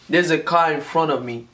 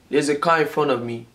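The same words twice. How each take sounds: The two takes are said the same way.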